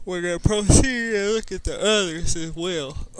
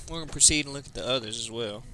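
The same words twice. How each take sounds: First: Loud, high, booming command to the troops; commanding leader voice. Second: Said in the usual way. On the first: Pretend. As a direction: announce it like a war chief rallying men. Rallying the group in-character.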